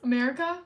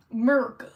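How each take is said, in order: First: Said in the usual way. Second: America squashed to "Murca", hit louder; slangy 'Merica. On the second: Pretend. Streamer repeating a quiz answer, America cut to slangy "Murca". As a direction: say America loudly as "Murca", first vowel dropped.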